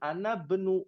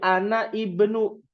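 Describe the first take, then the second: First: Ana runs straight into bnu without a stop. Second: A glottal stop separates ana from ibnu. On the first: "Kalau ada kata sebelumnya dia jadi nyambung" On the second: "tetap dibacanya terpotong"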